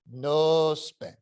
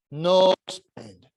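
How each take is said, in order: First: Put-on "no spend" repeated at normal volume in an Italian accent, milder; softer echo. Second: Put-on "No spend" with "No" pressed louder and falling, Italian accent; firm Italian warning. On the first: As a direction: ease off on the second "no spend". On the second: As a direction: stress "No" hard in "No spend". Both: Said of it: "This heavy Italian accent".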